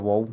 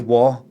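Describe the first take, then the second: First: The final L sound is clearly pronounced. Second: The final L sound is dropped. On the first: "instead of wall" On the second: "I say wa a lot"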